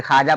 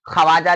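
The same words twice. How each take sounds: First: ख्वाजा as "khaa-ja", silent w; read form. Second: ख्वाजा as "kha-waa-ja"; written form. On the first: Teacher gives the example as read, w left silent. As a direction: drop the व from ख्वाजा. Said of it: "ख्वाजा पढ़ते हैं". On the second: Teacher gives another example as written, w sounded. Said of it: "ख्वाजा लिखते हैं". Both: Shown as a demonstration.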